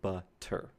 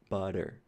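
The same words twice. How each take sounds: First: The middle consonant is a clear T sound. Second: The middle consonant is a brief tongue flap. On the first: "if you're a speaker of British English, you will say butter, butter. You will make that T sound" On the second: "this sound that isn't quite a T, it's not quite a D, it's just this very street, brief strike against the roof of your mouth"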